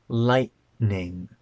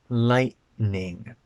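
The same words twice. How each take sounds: The two takes are said the same way.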